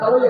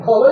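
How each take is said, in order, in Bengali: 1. প্রথম স্বরধ্বনিটি 'a'-এর মতো শোনায়। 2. প্রথম স্বরধ্বনিটি 'o'-এর মতো শোনায়। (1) "আপনারা খালই বলেন না" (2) "আমরা আমরা বলি খলই।"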